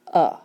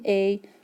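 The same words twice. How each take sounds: First: The vowel is a short, reduced schwa sound. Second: The vowel is the long letter-name 'ay' sound. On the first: "but it's saying a" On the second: "it is a vowel saying a"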